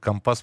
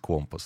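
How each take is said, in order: First: The word is stressed the way sailors say it. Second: The word is stressed the standard dictionary way. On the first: This is how sailors say it. "по-моему, моряки говорят" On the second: This is the standard norm of the language. "По нормам русского языка говорить компас"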